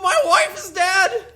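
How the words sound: It is said in an impression of Shaggy.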